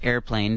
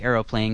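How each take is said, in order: First: It is pronounced airplane, with two syllables. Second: It is pronounced aeroplane, with three syllables. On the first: "you could pronounce it airplane" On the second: "I say aeroplane because that's how it's spelt"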